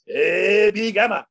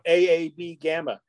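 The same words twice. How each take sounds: First: It is said like a Japanese actor. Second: It is said like an English-speaking dub actor.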